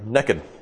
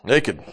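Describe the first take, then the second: First: It is said in a Southern US accent. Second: It is said in a standard, non-Southern accent.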